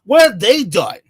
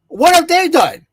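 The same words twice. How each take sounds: First: Said in the usual way. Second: Raised, exasperated repeat; louder, higher repeat. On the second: Retold or imitated. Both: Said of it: "I'm like".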